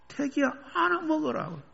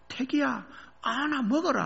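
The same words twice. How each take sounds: First: Mother calling again. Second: Mother calling. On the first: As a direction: repeat her words fondly. Mother line repeated. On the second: Mother handing melons to son at sports day, high light call. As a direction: toss it off like a busy mother. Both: Retold or imitated.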